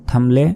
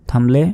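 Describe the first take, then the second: No difference in how they are said.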